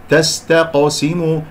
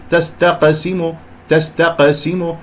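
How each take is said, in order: First: تستقسم slow, with a dark, rounded qo; heavy ق. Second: تستقسم with a thin, plain qa; wrong light ق. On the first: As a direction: deepen the vowel after ق in تستقسم. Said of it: "هكذا أفخمها". (نطق تستقسم ببطء بقاف مفخمة) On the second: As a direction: say تستقسم without darkening the ق. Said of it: "هذه قاف عادية ليست قاف مفخمة". (نطق تستقسم خطأً بقاف غير مفخمة) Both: Shown as a demonstration.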